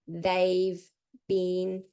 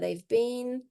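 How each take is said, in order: First: Each word is pronounced separately and clearly. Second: The words are linked together smoothly. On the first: "practicing it clearly, like in the greenhouse" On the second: "pronounce it more connected"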